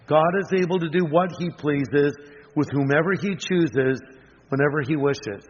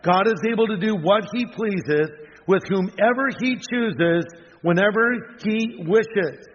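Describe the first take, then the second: First: Said in the usual way. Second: "whomever" and "whenever" stressed, "whenever he wishes" slowed right down; repeated slowly so every word lands; slow emphatic repeat. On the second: Shown as a demonstration. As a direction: lean on "whomever" then draw out "whenever he wishes". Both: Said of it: "Let me repeat that".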